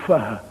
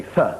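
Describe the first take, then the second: First: "th" turned into a fuh sound; Londoner's TH as F. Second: Said in the usual way. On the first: Shown as a demonstration. Comic mocking Londoners, "th" pronounced as F. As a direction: say "th" as F, teeth on lip. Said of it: "the Londoner has trouble with the T and the H". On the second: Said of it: "He doesn't say th".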